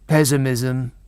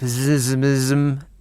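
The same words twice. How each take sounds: First: The word is pronounced in the standard way. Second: The word is pronounced in a garbled, mangled way. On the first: The speaker calls it right. "an alternative, which is the correct thing" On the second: The speaker calls it wrong. "when he mispronounces something"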